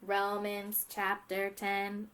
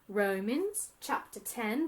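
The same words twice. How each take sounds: First: It is spoken in a mechanical robot voice. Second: It is spoken in a fancy British accent. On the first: "let's do a robot voice" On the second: "try and do your best British accent"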